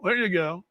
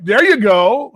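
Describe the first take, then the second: First: Said in the usual way. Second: There you go, louder with a rising lift on you; approving rise. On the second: Real, not acted. Host approves a listener's plan, louder with a rise. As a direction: cheer the listener on.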